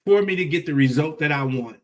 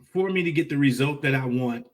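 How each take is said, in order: Both takes have the same delivery.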